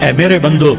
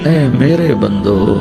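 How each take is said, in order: First: It is said in a plain, flat tone. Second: It is said in a warm, loving tone. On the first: The speaker calls it wrong. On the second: The speaker calls it right.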